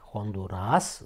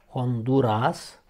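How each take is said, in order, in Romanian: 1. Accentul cade pe ultima silabă. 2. Accentul nu cade pe ultima silabă. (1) "corect, deci accentul pe A" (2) "greșit"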